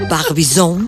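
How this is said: It is said with a French pronunciation. "Pero en francés sería"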